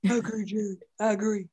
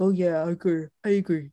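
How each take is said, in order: First: Soft, slack-jawed dopey dog; lightly voiced big dumb dog. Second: Dopey voice. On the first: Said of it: "I just love that voice". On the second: Retold or imitated. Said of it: "in this, like, dopey voice".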